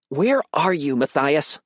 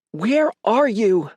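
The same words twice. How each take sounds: First: Higher, alert motherly question. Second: High, drawn-out panicked demand. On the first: Mother asking her son's whereabouts, alert. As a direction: ask it pointedly, pitched up. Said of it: "Mom sounded more alert now". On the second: Mother demanding where her son is, panicked. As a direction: stretch each word in rising alarm. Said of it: "voice panicked". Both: A narrator's reading.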